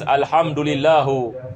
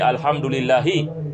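First: The phrase ends with an 'u' vowel. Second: The phrase ends with an 'i' vowel. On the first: The speaker calls it wrong. "this is a mistake in recitation" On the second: The speaker calls it right. "It should be"

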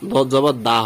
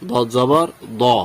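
First: The final vowel is a thin, open 'aa' sound. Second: The final vowel is thick, heavy and rounded. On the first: The speaker calls it wrong. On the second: The speaker calls it right.

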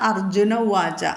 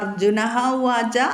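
First: No 'h' sound follows 'Arjuna' before 'uvaca'. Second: An 'h' sound follows 'Arjuna' before 'uvaca'.

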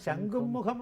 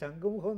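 First: It is said as two words, shankhum mukham. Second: It is said as one word, shankhumukham. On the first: The speaker calls it right. "ആ ശംഖും മുഖം എന്നാണ് പറയുന്നത്" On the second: The speaker calls it wrong. "ശംഖുമുഖം എന്നല്ല"

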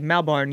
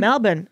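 First: It is said with an American accent. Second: It is said with an Australian accent. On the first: The speaker calls it wrong. "if you say Melbourne, you're an idiot" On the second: The speaker calls it right. "you are saying it with a bit of an accent"

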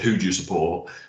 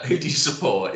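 First: It is said in a put-on deep voice. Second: It is said in a less deep voice.

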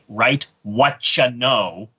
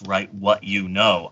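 First: 'What you' is blended into one word, 'whatcha'. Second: 'What you' is said as two separate words. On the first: "And I try and pronounce that properly every time" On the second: "I don't write down in my notes"

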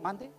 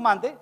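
First: It is said meekly, in a timid, submissive tone. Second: It is said confidently, in a firm, dignified tone. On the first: The worker sees themselves as lowly and servile. The speaker calls it wrong. "con esa agachadita así como de bobo" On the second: The worker serves with dignity and self-worth. The speaker calls it right.

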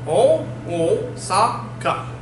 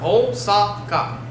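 First: The word is split into four separate beats. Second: The word is said in three syllables. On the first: "In on, it is four" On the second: "Osaka is a three syllable word"

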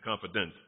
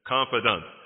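First: The final syllable sounds like 'dent'. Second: The final syllable sounds like 'dant'. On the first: The speaker calls it wrong. "Don't say confident" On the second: The speaker calls it right. "That's the way we should pronounce it"

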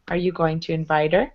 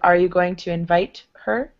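First: The h sound is dropped and 'her' links on. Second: The h sound in 'her' is clearly pronounced. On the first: "we drop the H to blend it to the word before" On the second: "Instead of"

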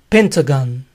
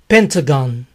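Both takes have the same delivery.

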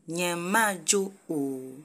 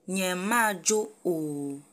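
The two takes are said the same way.

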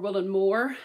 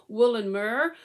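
First: It is said in a local Devon accent. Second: It is said in a neutral, non-local accent.

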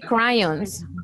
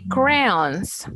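First: The word is pronounced fully, following its spelling. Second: The word is pronounced reduced, unlike its spelling. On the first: The speaker calls it wrong. "We never say crayons" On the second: The speaker calls it right. "We say crayons"

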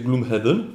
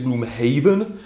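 First: The end sounds like the word 'heaven'. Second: The end sounds like the word 'haven'.

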